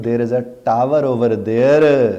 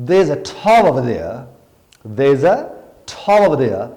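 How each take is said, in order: First: Very slow, r dropped, clear tower, louder; British English accent. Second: Very slow thick desi accent, thaw for tower, louder; Pakistani English accent. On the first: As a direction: say it the British way, slowly. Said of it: "تو میں کہتا ہوں". (برطانوی لہجے میں آہستہ There is a tower over there) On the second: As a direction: drag it out in a heavy local accent. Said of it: "اگر میں آپ سے کہتا ہوں". (بہت آہستہ دیسی لہجے میں There is a thaw over there) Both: Shown as a demonstration.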